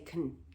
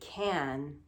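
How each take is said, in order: First: The word is said quickly and reduced. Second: The word is said slowly and carefully. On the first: The speaker calls it right. "when we're speaking quickly, we don't say can, we actually say can" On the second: The speaker calls it wrong. "I'm saying it slowly, so I say can"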